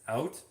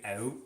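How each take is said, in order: First: It is said in the speaker's plain accent. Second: It is said in a stereotypical Canadian accent.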